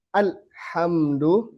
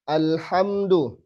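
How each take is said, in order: First: Alhamdu with the lam overdrawn, slowly; wrong lam. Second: Alhamdu with the lam neither stopped nor flowing; slow, lam held just enough; medium lam. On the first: Teacher showing the mistake, slowly. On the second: Teacher modelling the middle quality, slowly. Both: Shown as a demonstration.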